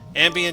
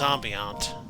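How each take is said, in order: First: It is said in a plain, ordinary accent. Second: It is said with a fancy, foreign-sounding accent. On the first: The speaker sounds bland. The speaker calls it wrong. "just sounds bland" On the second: The speaker sounds classy. The speaker calls it right. "Use the proper accent"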